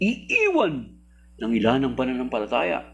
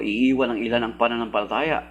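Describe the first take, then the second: First: Iiwan is stressed and "ng ilan" is said softly. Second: "Ng ilan" is stressed instead of being said softly. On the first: Hides that only some people leave the faith. The speaker calls it wrong. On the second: Makes clear that only some people leave the faith. The speaker calls it right.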